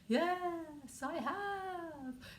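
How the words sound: It is said in a ghostly voice.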